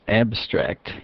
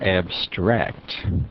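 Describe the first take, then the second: First: The stress is on the first syllable. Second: The stress is on the second syllable. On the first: It is used as a noun or adjective. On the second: It is used as a verb.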